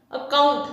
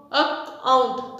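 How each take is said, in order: First: Said in the usual way. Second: अकाउंट slowly in two, ac-count; split into syllables. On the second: Shown as a demonstration. Teacher dividing अकाउंट for students, slow syllable by syllable. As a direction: leave a gap inside अकाउंट. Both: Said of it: "two syllable division".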